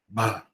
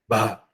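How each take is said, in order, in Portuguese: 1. A vogal inteira é dita com voz soprosa. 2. A vogal inteira é dita com voz soprosa.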